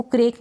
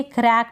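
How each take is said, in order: First: क्रेक with a long "ay" vowel; mispronunciation demo. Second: क्रैक with an open "ae"; correct vowel demo. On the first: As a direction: make क्रेक rhyme with "lake". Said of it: "इसको क्रेक नहीं पढ़ेंगे". (क्रेक में ए की मात्रा) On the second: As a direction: say क्रैक like English "crack". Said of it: "क्रैक पढ़ेंगे". (क्रैक में ऐ की मात्रा) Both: Shown as a demonstration.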